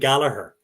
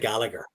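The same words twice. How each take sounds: First: Gallagher is said with an Irish pronunciation. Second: Gallagher is said with an English pronunciation. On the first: The speaker calls it right. "we'd say [name] and [name]" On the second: The speaker calls it wrong. "We we don't say [name] like they say"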